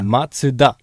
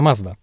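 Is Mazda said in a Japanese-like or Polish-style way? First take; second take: Japanese-like; Polish-style. First: It is said closer to the Japanese way. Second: It is read the usual Polish way. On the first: The speaker calls it right. "No to po japońsku" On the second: The speaker calls it wrong. "też się nie czyta Mazda"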